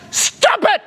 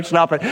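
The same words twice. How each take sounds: First: High-pitched comic shout; yelling. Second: Said in the usual way. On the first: Retold or imitated. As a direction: yell it sharply, far above normal pitch. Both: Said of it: "He's just yelling at her".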